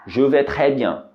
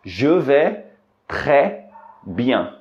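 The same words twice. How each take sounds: First: Said in the usual way. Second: "Je vais" "très" "bien" with pauses; slow spaced demo; word by word. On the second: Shown as a demonstration. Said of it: "você pode responder".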